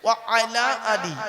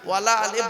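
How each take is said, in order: First: The first two words are kept apart. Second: The first two words are merged into one. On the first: The speaker calls it right. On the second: The speaker calls it wrong.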